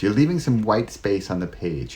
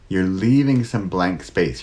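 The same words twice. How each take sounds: First: Said in the usual way. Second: Slowed right down, spaced out words; unhurried deliberate delivery; slow with pauses. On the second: Shown as a demonstration. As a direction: let each word land slowly. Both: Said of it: "how the pauses, the silence".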